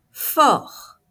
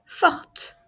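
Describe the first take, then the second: First: Fort. said high, loud and clear, final r; Fort. projected as a pronunciation model; stressed model word. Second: Forte. whispered, ending on a t; feminine form, final t sounded. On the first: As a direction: model Fort. loudly for the class. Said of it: "teacher model". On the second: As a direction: breathe Forte. with a crisp final t. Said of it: "feminine form". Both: Shown as a demonstration.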